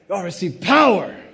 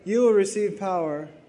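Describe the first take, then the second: First: It is said loudly with lively energy. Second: It is said quietly in a flat voice. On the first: The speaker is excited about the promise. The speaker calls it right. "you got to say it like that" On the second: The speaker sounds unmoved by the promise. The speaker calls it wrong. "You can't go"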